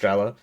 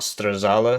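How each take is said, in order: First: The name is said as Strela. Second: The name is said as Strazala. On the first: The speaker calls it right. "it's just Strela" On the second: The speaker calls it wrong. "It's not Strazala"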